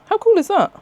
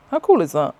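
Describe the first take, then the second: First: Much higher and louder, gushing; excited squeal. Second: Said in the usual way. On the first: Real, not acted. Showing viewers a shotgun-shell pin badge, excited squeal. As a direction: squeal it out with delight.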